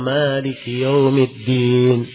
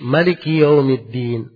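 First: The vowel after the m is long. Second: The vowel after the m is short. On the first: This is one established reading of the verse. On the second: This is another reading of the verse.

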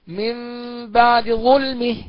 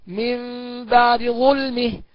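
First: The d keeps a quick, reduced vowel. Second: The d keeps a quick, reduced vowel.

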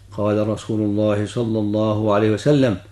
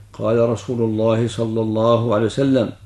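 No difference in how they are said.

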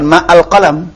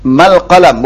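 First: A separate glottal stop is pronounced before 'al'. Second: The words are linked, with no glottal stop before 'al'. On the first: The speaker calls it wrong. "bukan ma al qalam" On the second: The speaker calls it right. "kalau baca mal qalam kan itu mal qalam"

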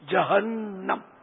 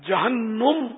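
First: The vowel after the n is 'a'. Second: The vowel after the n is not 'a'. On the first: The speaker calls it right. "نون پر زبر ہے" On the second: The speaker calls it wrong. "یہ تلفظ غلط ہے"

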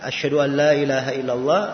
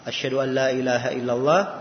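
First: It is said in a higher, raised voice. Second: It is said in a fairly low, restrained voice. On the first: This is the repeated testimony, called tarji'. "balik lagi dengan suara yang lebih tinggi" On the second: This is the first, quieter recitation of the testimony. "dibaca dengan suara yang agak tidak terlalu tinggi"

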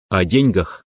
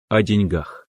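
First: The stress is on the first syllable. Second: The stress is on the last syllable. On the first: This follows an outdated norm. The speaker calls it wrong. "надо делать ударение на первый слог" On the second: This follows the modern norm. The speaker calls it right. "В современном русском языке правильно"

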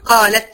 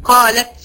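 Both takes have the same delivery.

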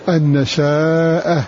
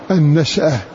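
First: The sh sound has a long a after it. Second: The sh sound has no vowel after it.

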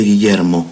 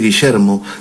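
First: The double L sounds like English y. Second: The double L sounds like English sh. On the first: The speaker slipped into the local way of speaking. The speaker calls it wrong. "dije nítidamente Guillermo" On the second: This is the speaker's own native way of speaking. The speaker calls it right. "en vez de decir Guillermo"

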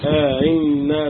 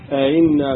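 First: The second hamza is softened after a lengthened vowel. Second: The second hamza is softened without a lengthened vowel. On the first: "وفي التسهيل مع الإدخال" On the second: "وفي قراءة بالتسهيل"

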